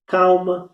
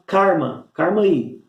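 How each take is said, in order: First: Said in the usual way. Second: "karma" with a caipira R for the L; caipira pronunciation. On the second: Shown as a demonstration. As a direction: say "karma" with the R where the L goes. ("karma" com R caipira no lugar do L) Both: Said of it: "eles podem falar".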